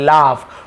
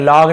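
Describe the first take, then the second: First: The word ends with an f sound. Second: The word ends with a g sound. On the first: The speaker calls it right. "लाफ पढ़ेंगे" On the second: The speaker calls it wrong. "लॉग नहीं पढ़ेंगे"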